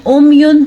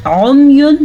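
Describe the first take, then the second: First: उम्युन begun with a simple glottal hamza; wrong hamza reading. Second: उम्युन begun with a squeezed throat ain; correct ain reading. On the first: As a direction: say उम्युन with a plain vowel onset, no ain. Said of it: "हमज़ा के साथ पढ़ा". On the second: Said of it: "सही पढ़ा और आइन के साथ पढ़ा". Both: Shown as a demonstration.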